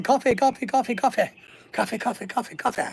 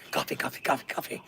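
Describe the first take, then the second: First: Lightly voiced chant of coffee, fading down; movie quote. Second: Soft, breathy whisper, much softer; whispered movie quote. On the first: Quoting Dante's Peak to chat in a light chanting voice. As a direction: rattle off the line like the film character. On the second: Retold or imitated. Quoting Dante's Peak to chat in a hushed whisper. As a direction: hush it like a secret line from the film. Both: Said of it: "that was from the movie Dante's Peak".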